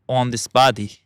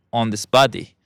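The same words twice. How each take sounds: The two takes are said the same way.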